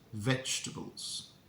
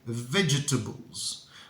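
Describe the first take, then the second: First: The vowels in the second half are dropped. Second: The vowels in the second half are pronounced. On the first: This is how everyone says it nowadays. The speaker calls it right. "we imagine there are no vowels in the second half of the word" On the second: This is an old-fashioned way of saying it. The speaker calls it wrong. "much better, but it's still not correct. It's very, very old-fashioned"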